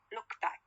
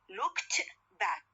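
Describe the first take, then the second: First: The t sound at the word end is dropped. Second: The t sound at the word end is heard. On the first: "in a connected speech, no, it will be like look back" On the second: "when I say looked back"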